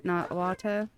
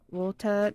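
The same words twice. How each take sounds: First: Said in the usual way. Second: "Walter" said the way a small Boston kid says water, lightly imitated; Boston-style word. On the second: Little sister's Boston "Walter" for water, lightly imitated. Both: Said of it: "my younger sister almost had a Boston accent".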